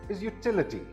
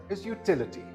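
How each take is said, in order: The two takes are said the same way.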